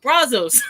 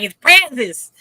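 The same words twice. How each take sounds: First: Brazos answered as BRAH-zohz; own pronunciation. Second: Brazos punched loud as BRAZ-iss; emphatic Texan pronunciation. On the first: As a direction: counter with Brazos, open "ah", long "o". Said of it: "and I would pronounce it". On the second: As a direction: insist on Brazos with a cat vowel and "iss". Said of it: "they pronounce it here". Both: Retold or imitated.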